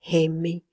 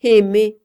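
First: Said in the usual way. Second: "aimés" spat out much louder; "aimés" repeated in a sudden loud burst of rage. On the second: A narrator's reading. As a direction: bite down hard on "aimés", furious. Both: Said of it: "dit-il blanc de fureur".

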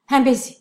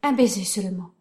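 First: Louder, more urgent second plea. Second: Said in the usual way. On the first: Acted. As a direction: push the repeat higher and louder. Pleading repeat louder.

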